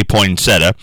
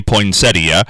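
First: "poinsettia" ending in plain "-uh"; shortened three-syllable pronunciation. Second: "poinsettia" ending in "-ee-uh"; full four-syllable pronunciation. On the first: Retold or imitated. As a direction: say "poinsettia" as poin-SET-uh. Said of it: "he would say poinsettia". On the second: Shown as a demonstration. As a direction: say "poinsettia" with the i sounded, poin-SET-ee-uh. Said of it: "how to pronounce, uh, uh, poinsettia".

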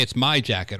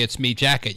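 First: Said in the usual way. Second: "me" said like the pronoun me. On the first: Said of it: "You say "it's my jacket". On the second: Shown as a demonstration. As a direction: say "me" with an ee vowel. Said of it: "You don't say "me" instead of "my".

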